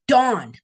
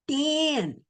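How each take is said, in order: First: The vowel is an open 'ah' sound. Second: The vowel is a flat 'cat' sound. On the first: The speaker calls it right. "got to remember, it's Dawn" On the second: The speaker calls it wrong. "not Dan"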